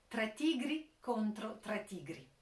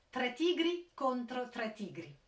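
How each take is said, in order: The two takes are said the same way.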